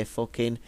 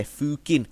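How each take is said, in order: First: Said in the usual way. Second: "fucking" said as "fooking" in a northern accent; long oo in "fucking", northern-style. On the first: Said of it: "but they say fucking". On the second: Shown as a demonstration. Fan demonstrating how Game of Thrones characters talk, northern accent. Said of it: "like, northern accents".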